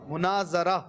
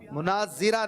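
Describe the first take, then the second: First: The third syllable is pronounced 'za'. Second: The third syllable is pronounced 'zi'. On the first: The speaker calls it right. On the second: The speaker calls it wrong.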